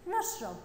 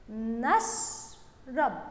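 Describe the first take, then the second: First: Said in the usual way. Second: نشرب very slowly, نش held, then a pause before رب; slow syllabic reading. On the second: Shown as a demonstration. Teacher reading along with pupils, نشرب slow and in syllables. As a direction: split نشرب into two drawn-out syllables. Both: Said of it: "يلا نقرأها مع بعض".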